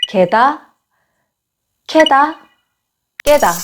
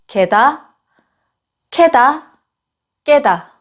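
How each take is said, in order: The two takes are said the same way.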